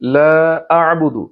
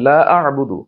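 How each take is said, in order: First: The vowel in 'la' is long. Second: The vowel in 'la' is short. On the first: I do not worship what you worship. The speaker calls it right. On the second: I surely worship what you worship. The speaker calls it wrong.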